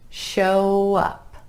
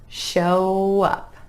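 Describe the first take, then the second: The two takes are said the same way.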